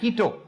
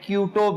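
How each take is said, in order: First: The name begins with the sound 'kee'. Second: The name begins with the sound 'kyoo'. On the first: The speaker calls it right. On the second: The speaker calls it wrong.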